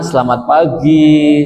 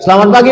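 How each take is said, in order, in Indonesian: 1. Diucapkan dengan ramah dan sopan. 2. Diucapkan dengan ketus dan tidak sopan. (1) "Nah itu enak" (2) "Nah itu perbuatan yang salah"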